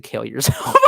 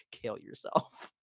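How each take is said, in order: First: Retold jab breaking into laughter; laughing retort. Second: Very slow, voiceless murmur; hushed repeat. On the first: Retelling a retort to a woman, laughing. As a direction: crack up while delivering the retold line. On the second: Retold or imitated. Savoring own retort after laughing, hushed and slow. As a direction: breathe it out slowly, barely audible.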